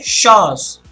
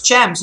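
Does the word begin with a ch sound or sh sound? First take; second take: sh sound; ch sound. First: It begins with a sh sound. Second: It begins with a ch sound. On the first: The speaker calls it right. "C H makes the sh sound and it's shaws" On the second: The speaker calls it wrong. "you can clearly you think that it is champs, is it not? But it's not"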